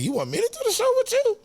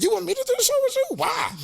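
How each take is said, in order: First: Much higher, quick disbelieving squeak; can't believe the offer, voice jumps way up; incredulous question. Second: Much higher, fast disbelieving squeak; incredulous question. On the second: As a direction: act stunned that he's asking you. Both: Retold or imitated. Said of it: "That's how I said, just like that".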